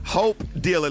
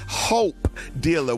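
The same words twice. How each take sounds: First: The opening H sound is said plainly. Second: The opening H sound is strongly emphasized.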